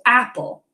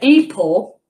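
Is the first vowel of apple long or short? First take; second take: short; long. First: The first vowel is a short 'a' sound. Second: The first vowel is a long 'ay' sound. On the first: The speaker calls it right. "I would see that it's a short vowel" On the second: The speaker calls it wrong. "that wouldn't be right"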